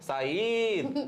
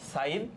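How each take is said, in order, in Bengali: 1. প্রথম স্বর 'a' দীর্ঘ করে টানা হয়। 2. প্রথম স্বরটি ছোট; 'i' এর উপর জোর দেওয়া হয়। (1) "দুই আলিফ টান দিব সাইদ না, মোটেও না" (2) "ইতে আমাদের এমফাসিসটা যাবে"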